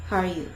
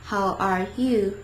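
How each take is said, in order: First: All three words run together; brisk native-style linking; quick, linked words. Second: Each word drawn out separately; careful beginner's pacing; slow, clear words. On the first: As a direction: say it fast as one unit. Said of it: "they kinda link everything together". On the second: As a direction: say it slowly, word by word. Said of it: "They pronounce each word". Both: Shown as a demonstration.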